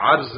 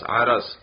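First: The r has no vowel after it. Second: The r is followed by a short a vowel. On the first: The speaker calls it wrong. "را کو ساکن نہیں پڑھنا، عرض نہیں پڑھنا" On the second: The speaker calls it right. "را پر بھی زبر ہے"

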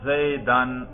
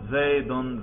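First: The word ends in the vowel a plus n. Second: The word ends in the vowel u plus n. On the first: The word is in the accusative case. "اس کے نصب پر ہم تلفظ کر رہے ہیں. تلفظ کر کے دکھاؤ" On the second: The word is in the nominative case. "ذرا اس کے رفع پہ تلفظ کرو"

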